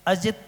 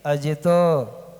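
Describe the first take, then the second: First: The word ends on a bare consonant. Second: The word ends with an added vowel sound. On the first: The speaker calls it wrong. "Ajit सागर जी बोल देते हैं" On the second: The speaker calls it right. "आ आना चाहिए"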